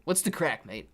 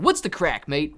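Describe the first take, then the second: First: Attempted English accent. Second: American accent. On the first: Streamer trying Irish slang for chat, English accent. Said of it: "I got you with an English accent". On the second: Streamer trying Irish slang for chat, American accent. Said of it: "American accent". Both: Shown as a demonstration.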